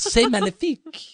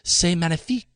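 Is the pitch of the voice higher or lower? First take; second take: higher; lower. First: It is said at a higher pitch. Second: It is said at a lower pitch.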